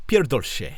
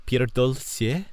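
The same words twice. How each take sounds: First: "Pierdol się" said firmly, falling, as a curse; "Pierdol" punched out with a falling end; confident Polish. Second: "Pierdol sie" sounded out slowly, rising like a question; "Pierdol" tried out hesitantly, slow and unsure; Polish attempt. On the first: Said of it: "a Polish phrase meaning "fuck off". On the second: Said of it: "I say repeatedly, a Polish phrase". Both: Shown as a demonstration.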